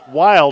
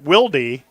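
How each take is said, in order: First: The name is said as one syllable. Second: The name is said as two syllables. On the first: This is how the player's family says it. "they pronounce it Wild" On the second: This is how a different player says it. "and not Wildy"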